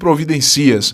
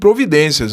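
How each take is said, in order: First: The stress is on the syllable 'ci'. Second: The stress is on the syllable 'den'. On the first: The speaker calls it wrong. "Eu não digo providencias" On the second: The speaker calls it right. "Claro que eu digo providências"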